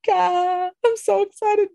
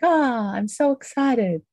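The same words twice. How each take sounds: First: It sounds tense and nervous, not fully happy. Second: It sounds dreamy and blissful, like being in love.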